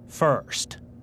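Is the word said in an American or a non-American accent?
American. The word is said with an American accent. The speaker is trying to fit in with others. "I'd hear myself saying first instead of"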